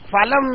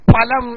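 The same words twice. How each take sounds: First: The word begins with an f sound. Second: The word begins with an aspirated p sound. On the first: The speaker calls it wrong. "അത് ഫലം എന്നല്ല വായിക്കുക" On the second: The speaker calls it right. "ഫലം എന്നാണ് വായിക്കുക"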